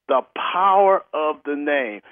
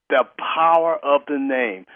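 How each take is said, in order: No difference in how they are said.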